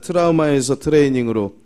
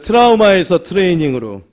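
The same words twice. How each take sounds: First: It is said at normal volume. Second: It is said more loudly.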